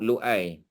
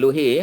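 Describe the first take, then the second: First: A glottal stop is heard in the middle. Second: An h sound is heard in the middle. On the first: The speaker calls it right. "lam waw tapi atas waw tu ada hamzah" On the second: The speaker calls it wrong. "bukan Luhi ya"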